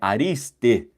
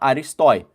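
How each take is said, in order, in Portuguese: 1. A palavra termina com a vogal 'e'. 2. A palavra termina com o ditongo 'oi'. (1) "mas na verdade é Ariste" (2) "quem não conhece grego fala Aristói"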